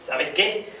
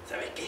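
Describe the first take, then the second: First: Said in the usual way. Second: Almost whispered, much softer; secretive whispered aside; hushed. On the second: Acted. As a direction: drop to a confiding hush. Repeats the phrase, second time hushed.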